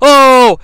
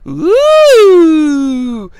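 First: It sounds like a shocked gasp. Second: It sounds like a swooning coo at a kiss.

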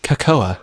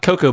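First: It ends with an extra 'a' sound. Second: It ends on an 'o' sound, two syllables. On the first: "Like that with the A at the end" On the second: "Not cocoa"

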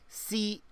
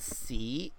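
First: The syllable has a high, short tone. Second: The syllable has a rising tone. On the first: It means master, as in sifu. "Sifu is like high tone" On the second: It is part of a rude word. "which is C with a rising tone"

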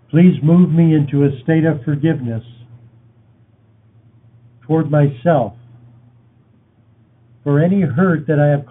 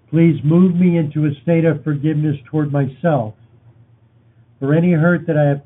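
First: It is spoken at a slower pace. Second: It is spoken at a normal pace.

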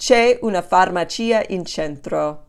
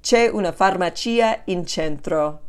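No difference in how they are said.

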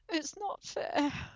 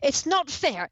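First: It sounds deflated and self-pitying. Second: It sounds combative and protesting. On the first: She has accepted it and feels sorry for herself. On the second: She is still fighting against what she must do.

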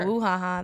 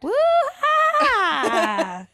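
First: The name is said flatly, in passing. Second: The name is said with exaggerated energy.

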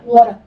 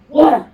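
First: It is said calmly. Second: It is said angrily.

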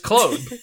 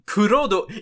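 First: The name is said as one French syllable. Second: The name is said with Japanese-style syllables. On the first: The speaker calls it right. "It's the French pronunciation of the name" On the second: The speaker calls it wrong. "I don't care what the subs say"

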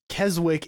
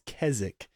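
First: Every letter of the spelling is sounded out. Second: Some letters of the spelling are not sounded. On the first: The speaker calls it wrong. "As in spelt K-E-S-W-I-C-K. And Keswick is not how you pronounce it" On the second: The speaker calls it right. "It's English or British, and it's Keswick"

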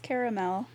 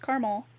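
First: It is said with three syllables, car-a-mel. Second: It is said with two syllables, car-mel. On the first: "If it has that extra A after the R, then it's caramel" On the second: "If there's no extra A, then it's caramel"

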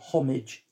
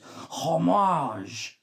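First: The word is said with an English pronunciation. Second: The word is said with a French pronunciation. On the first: The speaker calls it wrong. "Or some people say homage. Doesn't sound right, does it?" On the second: The speaker calls it right. "It's like a French cheers"

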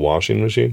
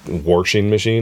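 First: Washing is said without any R sound. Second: Washing is said with an added R sound. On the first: This is the standard form. "instead of washing machine" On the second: This is a regional dialect form. "they say, like, washing machine"

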